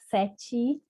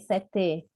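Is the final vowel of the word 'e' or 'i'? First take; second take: i; e. First: The word ends with an 'i' vowel sound. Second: The word ends with an 'e' vowel sound. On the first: This is how people actually pronounce it. "eu estou substituindo o E pelo I, porque eu falei" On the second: This is how it is spelled, not how people say it. "Eu não falei"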